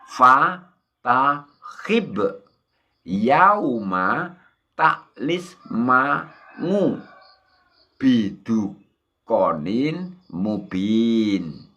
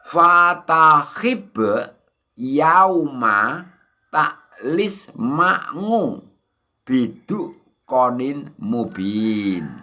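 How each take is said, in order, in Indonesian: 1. Dibaca pelan dan penuh kehati-hatian. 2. Dibaca dengan tempo normal, agak cepat.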